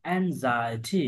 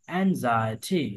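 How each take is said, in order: Both takes have the same delivery.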